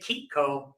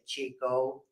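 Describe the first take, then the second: First: The name starts with a hard k sound. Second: The name starts with a soft ch sound. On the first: The speaker calls it right. "that C H gets a hard sound" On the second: The speaker calls it wrong. "You can say Chico without smiling"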